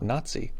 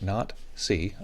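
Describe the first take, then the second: First: The two words run together into one word. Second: The two words are said clearly apart. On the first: The speaker calls it wrong. "the potential pronunciation here" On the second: The speaker calls it right. "I'm being very careful here to, to pronounce this correctly"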